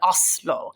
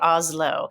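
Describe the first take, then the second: First: The middle consonant is a hard s. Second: The middle consonant sounds like a z. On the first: The speaker calls it right. "because the S is a little harder, right? It's like an Oslo" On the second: The speaker calls it wrong. "I guess I do say Oslo. ... as an American, we will transfer that to a z"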